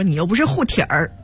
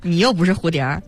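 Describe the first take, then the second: First: It is said in a Beijing accent. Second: It is said in plain standard Mandarin.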